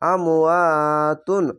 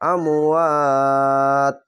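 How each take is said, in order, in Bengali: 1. শব্দটি পূর্ণ 'tun' ধ্বনি দিয়ে শেষ হয়। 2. শব্দটি শুধু 't' ধ্বনিতে থেমে যায়। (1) "এই আমওয়াতুন না বলে আমওয়াত" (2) "এভাবে থেমে যাবেন"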